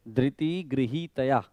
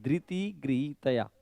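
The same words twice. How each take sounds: First: ધૃતિ with u vowel, slowed; slow chant showing the ru sound in ધૃતિ; wrong dhruti. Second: ધૃતિ said with ri, no u, slowly; slow careful ધૃતિ with plain r; correct dhriti. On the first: Teacher showing the mistake to correct, ધૃતિ with ru. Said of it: "બંનેમાં correction છે". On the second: Teacher giving the corrected ધૃતિ with ri. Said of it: "ધૃતિ નહીં". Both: Shown as a demonstration.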